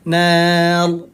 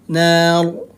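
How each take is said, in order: No difference in how they are said.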